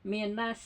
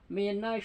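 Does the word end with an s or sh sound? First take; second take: s; sh. First: The final consonant is a hissing s sound. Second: The final consonant is a hushing sh sound. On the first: The speaker calls it wrong. "Kalau pakai sin kecil" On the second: The speaker calls it right. "shin besar yang ada titiknya"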